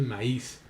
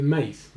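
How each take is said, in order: First: "maíz" in two syllables, stress on the í; correct hiatus pronunciation. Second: "maíz" run into one syllable, stress on the a; wrong diphthong pronunciation. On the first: Teacher correcting the word for students, "maíz" stressed on í. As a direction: say "maíz" as ma-ÍS, breaking the vowels. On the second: Teacher showing what you don't say, "maíz" as one syllable. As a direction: say "maíz" as MAIS, gliding into the i. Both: Shown as a demonstration. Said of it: "no dices maíz".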